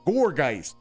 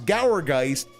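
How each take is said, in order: First: The first syllable sounds like 'gourd'. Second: The first syllable does not sound like 'gourd'. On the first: The speaker calls it right. "the analogy is supposed to be gourd" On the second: The speaker calls it wrong. "he wants to pronounce Gourgeist"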